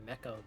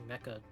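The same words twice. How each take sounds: The two takes are said the same way.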